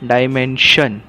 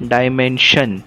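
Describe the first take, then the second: Both takes have the same delivery.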